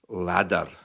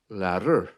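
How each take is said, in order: First: It has a Scottish accent with a harder D. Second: It has a Northern Irish accent, D like T. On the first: "It's the same in Scotland. The letter D takes a bit of a harder form" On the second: "in Northern Ireland, the D sounds more like a T"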